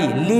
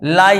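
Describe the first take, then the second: First: The vowel is said as 'ee'. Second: The vowel is said as 'ai'. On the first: The speaker calls it wrong. "ली नहीं कहते" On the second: The speaker calls it right. "L के बाद आई ई आया तो हो गया लाई"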